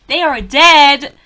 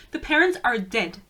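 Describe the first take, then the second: First: Slow, loud insistence on each word; loud, drawn-out exasperated correction; emphatic shout. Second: Said in the usual way. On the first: Real, not acted. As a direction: hammer it home, much louder on DEAD. Repeats the point with force.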